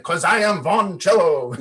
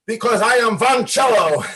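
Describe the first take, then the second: First: A milder, laughing replay of the declaration; half-hearted mock proclamation; retelling the outburst with a grin; lightly retold anger. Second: Loud, high defiant shout; shouting his new name in anger; angry declaration. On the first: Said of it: "I just got angry". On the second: Retold or imitated. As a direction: proclaim it with the bow raised. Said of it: "but I got angry".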